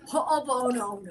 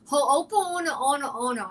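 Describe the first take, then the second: First: Ho'oponopono clipped and mangled, imitating herself; mock mangled. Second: Ho'oponopono drawn out slowly and mangled on purpose; purposely butchered. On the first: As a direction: toss off a garbled Ho'oponopono. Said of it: "So now when [name] says it". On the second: Retold or imitated. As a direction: stretch and garble Ho'oponopono as a joke. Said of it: "purposely butcher it".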